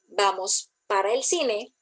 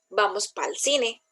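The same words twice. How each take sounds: First: Every sound of the words is pronounced. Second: Some sounds of the words are dropped. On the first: This is standard speech. "en vez de decir" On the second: This is casual, everyday speech. "está omitiendo ciertas letras ahí"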